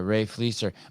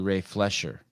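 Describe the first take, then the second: First: The surname has a plain 's' sound. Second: The surname has an added 'sh' sound. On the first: The speaker calls it right. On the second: The speaker calls it wrong.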